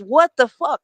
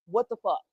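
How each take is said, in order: First: A shocked "What the fuck?", pushed out louder; friend's stunned "what the fuck"; shocked outburst. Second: A softer, deadpan "what the fuck?"; quiet, knowing echo of "what the fuck"; dry echo. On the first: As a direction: blurt it like the news just hit you. Friend's shocked reaction, retold. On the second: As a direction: throw her words back, unbothered. Narrator's own reply, echoing the friend. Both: Retold or imitated.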